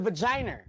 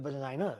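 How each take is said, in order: First: The word is said with an added R sound. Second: The word is said without an added R sound.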